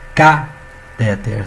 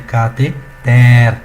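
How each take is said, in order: First: The stress is on the second syllable. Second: The stress is on the last syllable. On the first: The speaker calls it wrong. "ela nunca poderia ser o que? Catéter" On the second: The speaker calls it right. "a pronúncia correta dessa palavra é cateter"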